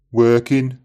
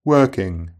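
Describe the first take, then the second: First: Working ending "-in", dropped g; Brummie Working. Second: Said in the usual way. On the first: Shown as a demonstration. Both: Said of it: "the J is normally dropped in I N G endings".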